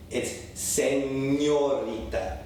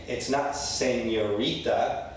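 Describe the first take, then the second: First: "señorita" very slowly, se-nyo-REE-ta; correct ñ. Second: "señorita" slowly with a flattened n; mock a careless "señorita"; wrong señorita. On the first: Teacher contrasting wrong and right, slow Spanish. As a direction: stretch the ñ in "señorita". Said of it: "The N makes that ñ". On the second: Teacher contrasting wrong and right. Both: Shown as a demonstration.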